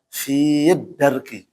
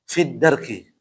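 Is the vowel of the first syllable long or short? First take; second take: long; short. First: The first vowel is drawn out long. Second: The first vowel is short, with no lengthening. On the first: The speaker calls it wrong. "Yang salah adalah apa?" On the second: The speaker calls it right. "yang benar maka cara baca yang benar adalah apa? ... Maka hilangkan huruf uh, ya-nya"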